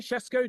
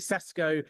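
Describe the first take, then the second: First: The name is said with a foreign-sounding first consonant. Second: The name is said with an anglicised first consonant. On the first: "I say Shesko just to be pretentious" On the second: "the anglicised version might just be Sesko"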